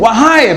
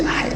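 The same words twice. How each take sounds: First: Calling out. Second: Hai in a soft whisper. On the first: Preacher shows how the ant calls out. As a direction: call Wahai out to the whole colony. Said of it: "wahai itu mesti bengok, bukan bisik-bisik". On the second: Preacher shows the wrong, whispered way. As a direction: hush Hai under the breath. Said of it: "bukan bisik-bisik". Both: Shown as a demonstration.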